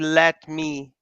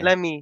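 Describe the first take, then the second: First: Each word is said fully and separately. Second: It is run together in a reduced form. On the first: "We don't say let me" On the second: "This is another relaxed speech"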